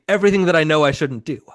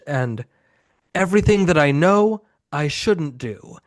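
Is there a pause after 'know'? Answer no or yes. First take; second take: no; yes. First: There is no pause after the word know. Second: There is a pause after the word know. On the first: They did everything they know they shouldn't. The speaker calls it right. "the line's supposed to be" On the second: Everything they know, they shouldn't do. The speaker calls it wrong. "There's a, a pause there that is not supposed to be there in the line"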